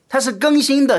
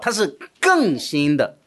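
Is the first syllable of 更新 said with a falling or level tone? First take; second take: level; falling. First: The first syllable of 更新 has a level tone. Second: The first syllable of 更新 has a falling tone. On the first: It is being renewed. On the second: It is newer than before.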